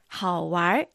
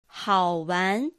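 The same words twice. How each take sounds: First: The word ends with an r-coloured sound. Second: The word ends without an r-coloured sound.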